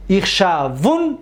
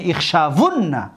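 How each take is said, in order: First: اخشاون drawn out, ending on a single n; light emphatic nun. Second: اخشاون drawn out with doubled n and final a; heavy emphatic nun. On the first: Teacher reciting light-nun forms, اخشاون ending in vowelless n. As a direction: slowly stop اخشاون on "-vun", no final a. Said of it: "با نون توکید خفیفه". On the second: Teacher reciting heavy-nun forms, اخشاون ending in -vunna. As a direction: slowly say اخشاون as "ikhshavunna". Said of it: "نون توکید ثقیله قطعی". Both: Shown as a demonstration.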